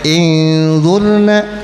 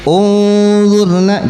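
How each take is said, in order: First: The word begins with an i vowel. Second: The word begins with a u vowel. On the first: The speaker calls it wrong. "Enggak boleh inzurna, salah" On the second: The speaker calls it right. "hamzah ... harus di dhamma"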